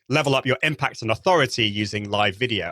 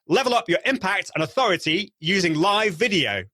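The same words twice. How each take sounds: First: It is said with low, conversational energy. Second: It is said with noticeably raised energy.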